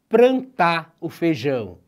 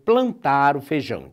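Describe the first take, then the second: First: The first word has an r sound after p. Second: The first word has an l sound after p. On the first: This is the popular everyday pronunciation. "Quem nunca ouviu dizer" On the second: This is the standard pronunciation. "ao invés de dizer"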